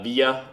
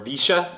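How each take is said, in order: First: The word is said without the local pronunciation. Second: The word is said with the local Argentine pronunciation.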